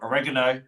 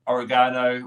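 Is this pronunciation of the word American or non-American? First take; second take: American; non-American. First: It is said with an American pronunciation. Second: It is said with a non-American pronunciation.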